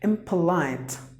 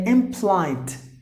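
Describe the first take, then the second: First: The vowel after the P is pronounced. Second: The vowel after the P is dropped.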